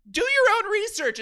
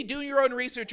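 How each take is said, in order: First: High, loud, defensive snap; rattled, raised-pitch retort; flustered outburst. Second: Said in the usual way. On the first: Acted. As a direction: blurt it out like a flustered internet commenter. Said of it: "you get flustered". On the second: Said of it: "As soon as you say".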